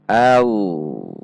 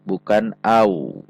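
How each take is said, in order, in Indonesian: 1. Berakhir dengan bunyi L tebal. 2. Berakhir dengan bunyi W. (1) "tetap menggunakan lam" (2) "Bukan menggunakan wawu"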